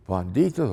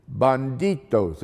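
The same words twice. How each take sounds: First: Said in the usual way. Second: Banditos said slowly, every syllable stretched and weighted; drawn-out emphasis. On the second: Shown as a demonstration. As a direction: let Banditos hang heavy and slow. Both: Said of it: "that word stood out like this".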